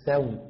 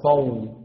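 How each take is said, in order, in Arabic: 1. صوت s خفيف ومرقّق. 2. صوت s ثقيل ومفخّم. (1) "لا سو" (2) "وليس صو"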